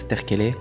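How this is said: The name is pronounced the Italian way. "des personnes d'origine italienne qui m'appellent, c'est Sterchele"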